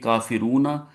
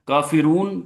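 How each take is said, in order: First: The word ends with a final a vowel. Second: The word ends on the n, no final vowel. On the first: The speaker calls it right. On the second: The speaker calls it wrong.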